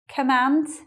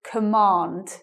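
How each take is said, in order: First: It is said in a northern English accent. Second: It is said in a southern English accent. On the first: "in the northern pronunciation, it's command" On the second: "In the southern pronunciation, this is command"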